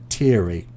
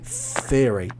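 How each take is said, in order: First: The word begins with a plain t sound. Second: The word begins with a th sound. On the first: The speaker calls it wrong. "so you're saying teary. It's more of a t t t" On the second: The speaker calls it right. "but it's a th th th sound"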